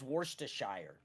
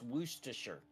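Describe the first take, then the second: First: The ending is said as a full 'shire'. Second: The ending is reduced to a short 'sher'. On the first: The speaker calls it wrong. "I thought it was Worcestershire" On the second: The speaker calls it right. "but it's Worcestershire"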